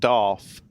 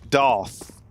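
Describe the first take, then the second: First: The word ends with an f sound. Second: The word ends with a th sound. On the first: The speaker calls it wrong. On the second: The speaker calls it right.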